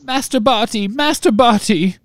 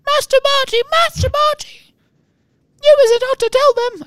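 First: High squeaky sobbing elf; house-elf voice. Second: Very high squeaky house-elf. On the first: A narrator's reading. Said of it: "sobbed Winky". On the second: Shown as a demonstration. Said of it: "I should be squeaking more".

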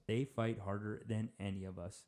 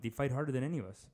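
First: Each word set apart, lower and quieter. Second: Said in the usual way. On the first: Real, not acted. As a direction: repeat it gravely, word by word. Repeats it slowly for weight.

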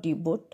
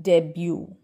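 First: "debut" as DEE-but, T sounded; wrong pronunciation. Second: "debut" as DEB-yoo, no final T; correct silent T. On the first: Teacher warning learners off debut as DEE-but. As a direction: say "debut" with a long dee and final T. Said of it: "It's not". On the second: Teacher correcting learners, debut as DEB-yoo. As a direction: say "debut" ending in "byoo". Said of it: "This is". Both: Shown as a demonstration.

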